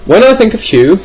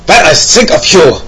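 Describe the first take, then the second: First: Said in the usual way. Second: Hammed-up German accent, higher pitched. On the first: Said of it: "I can't do an American accent". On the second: Host quoting a listener's reasoning, mock German accent. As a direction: read it as a comic German. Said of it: "I could do a German accent".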